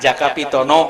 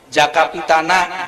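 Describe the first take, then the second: First: The final vowel is pronounced as 'o'. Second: The final vowel is pronounced as 'a'. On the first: This is the Javanese way of saying it. "di Jawa mah" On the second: This is the Sundanese way of saying it. "di Sunda mah"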